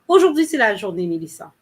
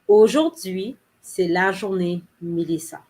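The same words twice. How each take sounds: First: It is said quickly and smoothly. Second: It is said slowly and carefully.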